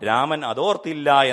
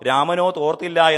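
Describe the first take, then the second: First: The break comes after 'raman'. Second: The break comes after 'ramano'. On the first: Rama did not remember that. The speaker calls it right. "Raman അതോർത്തില്ല എന്ന് നമുക്ക് വായിക്കാൻ പറ്റും" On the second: Rama had no towel. The speaker calls it wrong. "രാമനോ തോർത്തില്ല എന്നല്ല"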